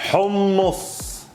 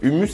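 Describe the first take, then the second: First: The first sound is rasped from the throat. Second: The first sound is a plain, soft h. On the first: The speaker calls it right. "avec la gorge. Comme si vous avez un chat dans la gorge" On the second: The speaker calls it wrong. "c'est à la française"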